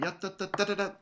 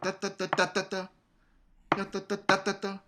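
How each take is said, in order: First: Rushed "ya da da da da da", like sixteenths; mock the student's too-fast triplet; imitating rushed triplet. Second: Sung "da da da" triplet with a clear accent, higher. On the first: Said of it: "You're playing". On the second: Shown as a demonstration. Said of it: "do the accent".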